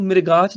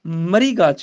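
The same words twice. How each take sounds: First: "ਮ੍ਰਿਗਾਚ" misread as mir-gaach; vowel before R. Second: "ਮਰੀਗਾਚ" said as mri-gaach; vowel after R. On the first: Teacher shows the mistake, "ਮ੍ਰਿਗਾਚ" as mir-gaach. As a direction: put the short i before the R in "ਮ੍ਰਿਗਾਚ". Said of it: "ਮ੍ਰਿਗਾਚ ਨਹੀਂ ਕਹਿਣਾ". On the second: Teacher corrects it, "ਮਰੀਗਾਚ" as mri-gaach. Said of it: "ਮਰੀਗਾਚ ਕਹਿਣਾ ਹੈ". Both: Shown as a demonstration.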